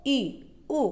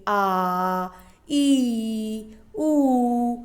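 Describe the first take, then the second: First: ई and उ said short and clipped as short vowels. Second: आ, ई, उ each held long and slow; long vowels. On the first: Teacher showing students the short vowels, quick and brief. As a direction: say ई, उ quickly, each one brief. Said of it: "जिन स्वरों का उच्चारण करने में कम समय लगेगा". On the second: Teacher showing students the long vowels, slow and drawn out. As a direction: slowly drag out आ, ई and उ. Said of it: "उसे दीर्घ स्वर कहते हैं". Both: Shown as a demonstration.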